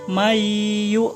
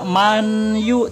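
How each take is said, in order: First: The n sound is merged into the y. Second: The n sound is pronounced clearly before y. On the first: The speaker calls it right. "tapi jadi mayu minu" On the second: The speaker calls it wrong. "bukan dibaca manyu"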